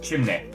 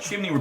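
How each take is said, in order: First: The word ends in an 'eh' sound. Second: The word ends in an ordinary 'ee' sound.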